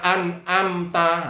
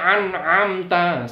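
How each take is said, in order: First: Both throat sounds are plain glottal stops. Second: Both throat sounds are deep ayn sounds. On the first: "An'amta itu hamzah semua" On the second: "Atau dibaca ain semua, ini juga salah"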